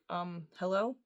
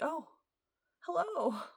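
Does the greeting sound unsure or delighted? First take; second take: unsure; delighted. First: The greeting sounds hesitant and unsure. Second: The greeting sounds warm and delighted.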